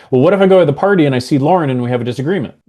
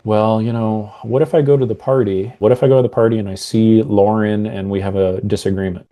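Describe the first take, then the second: First: Fast, higher and louder worry; louder anxious self-talk. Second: Said in the usual way. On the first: Shown as a demonstration. Coach demos the anxious loud inner voice, fast. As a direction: rush it out with rising alarm. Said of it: "very different meaning". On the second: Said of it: "that's gonna mean something different than".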